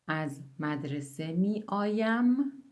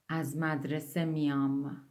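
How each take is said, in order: First: The verb is said in its full three-syllable form. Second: The verb is contracted to a two-syllable form. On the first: This is the formal written form. "از مدرسه میایم yerine از مدرسه میام kullanırız" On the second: This is the everyday spoken form. "halk dilinde nasıl söyleniyor"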